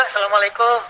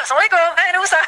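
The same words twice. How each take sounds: First: Lower, mournful greeting of a hopeless mother; pitiful greeting. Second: Higher, bright eager greeting; cheerful greeting. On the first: Childless mother greets Nabi Musa, pitiful and downcast. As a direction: say it like a weary, sorrowful woman. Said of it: "Melas gitu ya". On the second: Mother returns to Nabi Musa with her baby, cheerful. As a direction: burst in cheerful with good news. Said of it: "udah semangat sekarang". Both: Retold or imitated.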